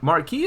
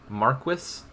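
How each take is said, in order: First: The word is said the American way. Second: The word is said the British way. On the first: "how the average American would pronounce that word" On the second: "they say marquis across the pond"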